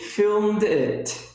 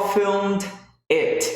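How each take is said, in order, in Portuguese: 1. O d final emenda direto no it. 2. As duas palavras são ditas separadamente. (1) "Esse D emenda com o I" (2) "Eu não falo essas duas palavras separadas"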